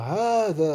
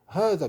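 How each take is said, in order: First: The first vowel is held long. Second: The first vowel is cut short. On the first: The speaker calls it right. "il faut le prononcer, il faut, faut dire hada" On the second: The speaker calls it wrong. "il ne faut pas dire hada"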